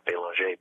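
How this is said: The name is said with a French pronunciation. This is how it is said in Canada or France. "when I'm in Canada or France, I pronounce it"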